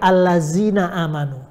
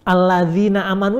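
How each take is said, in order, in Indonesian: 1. Konsonannya adalah bunyi 'z' yang berdengung. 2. Konsonannya adalah bunyi 'dh' yang lembut.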